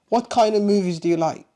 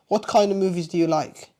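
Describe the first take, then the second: Both takes have the same delivery.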